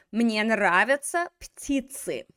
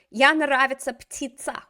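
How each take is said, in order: First: «Мне нравятся птицы» slow and careful, stress on мне; corrected version. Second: Louder, quoting «Я нравится птица» as the student said it; student's wrong version. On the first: Shown as a demonstration. Teacher models the correct sentence after the mistake. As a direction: model the fix slowly. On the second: Retold or imitated. Teacher quotes the student's wrong sentence. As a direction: read back the mistake. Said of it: "let's go back to our бедняжка".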